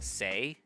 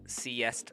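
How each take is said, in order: First: The word ends in a plain vowel. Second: The word is said with an s sound. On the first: The speaker calls it right. "I know that that it's pronounced say" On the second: The speaker calls it wrong. "I read that as sieste la vie"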